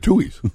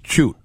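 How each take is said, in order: First: The name is said with two syllables, Tui's. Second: The name is said as a single syllable, choot. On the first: "just to anglicize it, we did Tui's" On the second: "in Ireland, you would say choot... That's the correct pronunciation"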